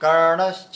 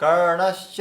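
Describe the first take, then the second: Both takes have the same delivery.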